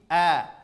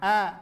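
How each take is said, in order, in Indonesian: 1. Bunyinya murni dari tenggorokan. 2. Bunyinya sebagian lewat hidung. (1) "murni dari pangkal tenggorokan" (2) "penyebutan hamzah masuk ke hidung juga"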